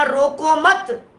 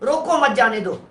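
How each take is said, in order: First: Slow रोको मत as one joined phrase; pause after मत. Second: रोको alone, मत जाने दो as one phrase; pause after रोको. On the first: Teacher shifting the comma, pause after मत. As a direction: run रोको into मत and stop after मत. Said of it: "फिर कॉमा लगा". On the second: Teacher demonstrating a comma's meaning, pause after रोको. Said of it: "comma लग गया". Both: Shown as a demonstration.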